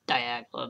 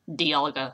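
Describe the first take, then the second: First: The G sound comes before the L. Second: The L sound comes before the G. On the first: The speaker calls it wrong. "I used to say Diagla" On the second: The speaker calls it right.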